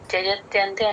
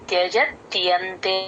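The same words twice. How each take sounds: First: The 'ya' sound is slurred or dropped. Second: The 'ya' sound is clearly heard. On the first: The speaker calls it wrong. "అనేస్తారు, చూసుకోండి" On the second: The speaker calls it right. "ఆ యా వినిపించాలి"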